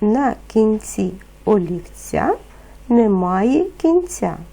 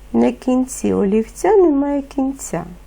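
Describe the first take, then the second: First: The phrase is spoken at a moderate pace. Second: The phrase is spoken at a fast pace. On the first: "Повторюйте за мною" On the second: "Тепер швидше"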